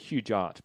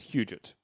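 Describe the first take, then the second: First: The last syllable sounds like 'gart'. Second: The last syllable sounds like 'got'. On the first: The speaker calls it wrong. "we used to say Hugart, but that was wrong" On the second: The speaker calls it right. "I think it's Hugot"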